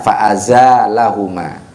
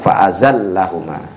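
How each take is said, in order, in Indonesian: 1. Vokal setelah z panjang; l tunggal. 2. Bunyi l dobel; vokal setelah z pendek. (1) "bi alifin ba'da zai, ada alifnya setelah huruf zai" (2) "bi ghairi alifin ... dengan mensyidahkan huruf lam"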